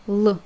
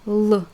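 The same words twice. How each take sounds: The two takes are said the same way.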